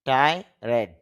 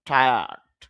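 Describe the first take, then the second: First: The word is said as two separate syllables. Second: The word is said as one blended syllable. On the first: The speaker calls it wrong. "এরকম উচ্চারণ করতে পারি" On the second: The speaker calls it right. "শুদ্ধ উচ্চারণটা হবে টায়ার্ড"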